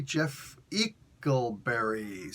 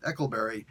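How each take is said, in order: First: "Eckleberry" said slowly and carefully, syllable by syllable; careful name reading. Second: "Eckleberry" said again at normal speed as a correction; quick correction. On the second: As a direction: fix "Eckleberry" briskly. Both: Shown as a demonstration. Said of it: "Sorry, Eckleberry".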